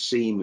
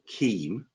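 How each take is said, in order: First: The word begins with a soft S sound. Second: The word begins with a hard K sound. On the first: "if I pronounce the C with a softness, it becomes SEAM" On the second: "a thing which I'm going to call KEAM"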